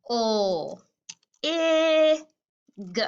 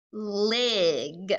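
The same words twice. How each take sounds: First: "O, I, g" as isolated l, ih, g sounds; sounded out. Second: "lig" stretched into one syllable; blended word. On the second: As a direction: blend the sounds slowly into "lig". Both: Shown as a demonstration. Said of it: "Let's try the first sound".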